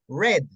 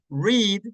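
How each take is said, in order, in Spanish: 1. Tiene la pronunciación en pasado. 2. Tiene la pronunciación en presente. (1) "pero en pasado cambia la pronunciación" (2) "en presente es read"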